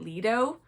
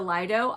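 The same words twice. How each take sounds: First: It is said with a non-British pronunciation. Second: It is said with a British pronunciation. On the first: This is how the speaker has always said it. "I've always pronounced it Lido" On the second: This is how British people say it. "I think you guys say the Lido"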